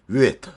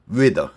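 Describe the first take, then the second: First: The final consonant is voiceless, like a T. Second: The final consonant is voiced, like a D. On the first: "위트도 맞고" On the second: "위드도 맞습니다"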